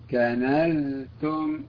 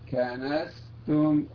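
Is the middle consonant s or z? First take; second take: z; s. First: The middle consonant is a voiced z sound. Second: The middle consonant is a voiceless s sound. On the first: The speaker calls it right. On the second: The speaker calls it wrong.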